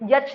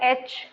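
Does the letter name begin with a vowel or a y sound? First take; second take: y sound; vowel. First: The letter name begins with a y sound. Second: The letter name begins with a plain vowel. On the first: The speaker calls it wrong. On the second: The speaker calls it right.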